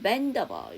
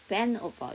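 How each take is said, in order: First: The D is linked into the following vowel. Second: The D is dropped, leaving only the N. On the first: "밴드 다음에 어버니까 밴더버 이렇게 넘겨주시면 되고요" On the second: "물론 D 발음을 안 하고 밴 오버 이렇게 하셔도 상관없어요"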